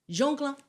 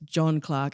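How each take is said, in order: First: The first name is said like the French 'Jean'. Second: The first name is said with an 'o' vowel. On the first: The name sounds as if he were French. The speaker calls it wrong. "you pronounced it Jean" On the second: The name is English, not French. The speaker calls it right. "New Zealand satirist John Clarke"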